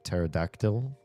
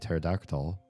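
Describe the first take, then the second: First: The last syllable ends with an 'ill' sound. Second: The last syllable ends with an 'ol' sound. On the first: The speaker calls it right. "It's an ill, right? Like pterodactyl?" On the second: The speaker calls it wrong. "Nobody would ever say pterodactyl"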